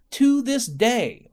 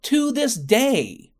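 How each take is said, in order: First: Slow and high, each word hammered; emphatic. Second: Slow, high and louder, each word hammered; emphatic. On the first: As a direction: lean hard on to this day. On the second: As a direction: punch out to this day. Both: Real, not acted. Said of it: "I need to emphasize this fucking point".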